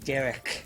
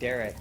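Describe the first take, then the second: First: The name is said with a lisp. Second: The name is said with clear, normal sounds. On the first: "all I hear is Derek, because that's how he talked" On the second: "whenever I hear the name Derek"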